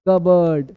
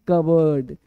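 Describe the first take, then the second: Both takes have the same delivery.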